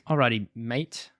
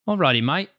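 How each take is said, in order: First: It is said in a British accent. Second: It is said in an Australian accent. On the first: "you should read it in a British accent" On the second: "Nope, that's Australian"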